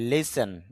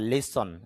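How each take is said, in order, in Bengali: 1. দ্বিতীয় সিলেবলে পূর্ণ 'e' স্বরধ্বনি আছে। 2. দ্বিতীয় সিলেবলে একটি হ্রস্ব স্বরধ্বনি আছে। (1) "যদিও আমরা লিসেন বলি" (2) "শুদ্ধ উচ্চারণটা হবে লিসন"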